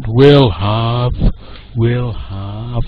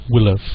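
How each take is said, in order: First: WILL HAVE slow and drawn out, both words stressed; over-emphasized full form. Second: WILL HAVE squeezed short and unstressed, run together; reduced weak form. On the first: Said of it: "we don't emphasize these words". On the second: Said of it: "shorter and softer, quieter". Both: Shown as a demonstration.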